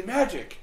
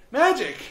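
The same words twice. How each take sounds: First: Dismissive shrug. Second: Higher, louder exasperated "Magic!". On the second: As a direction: throw up your hands on "Magic!". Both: Retold or imitated. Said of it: "shake your head and say".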